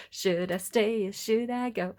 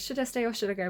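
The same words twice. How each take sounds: First: A slow half-sung should I stay or should I go. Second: Said in the usual way. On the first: Shown as a demonstration. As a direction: sing the title slowly. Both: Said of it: "it's kind of a bit of a silly song".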